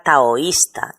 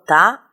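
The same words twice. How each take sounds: First: Said in the usual way. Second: "taoísta" broken into ta, o, is, ta with pauses; teacher separating each syllable of "taoísta". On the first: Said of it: "La O y la I se pronuncian en dos sílabas". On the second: Shown as a demonstration. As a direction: sound out "taoísta" slowly, splitting the o from the í. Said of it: "se pronuncian en dos sílabas diferentes".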